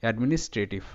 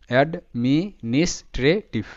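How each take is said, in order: First: Said in the usual way. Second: অ্যাডমিনিস্ট্রেটিভ stretched out slowly; careful teaching read of অ্যাডমিনিস্ট্রেটিভ; slow syllable-by-syllable. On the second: Shown as a demonstration. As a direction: draw out অ্যাডমিনিস্ট্রেটিভ part by part. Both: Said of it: "দেওয়া আছে পুরো উচ্চারণটা".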